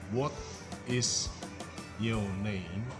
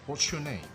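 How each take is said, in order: First: Both words 'what is' are said in full. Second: 'What is' is shortened to one syllable. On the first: The speaker calls it wrong. "kalau kita baca secara lengkap" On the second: The speaker calls it right. "dia memakai bentuk yang lebih ringkas"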